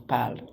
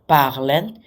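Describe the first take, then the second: First: The word ends without any n sound. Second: The word ends with an audible n sound. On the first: The speaker calls it right. "It actually pronounces as parle" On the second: The speaker calls it wrong. "it sounds tempting to say parlen"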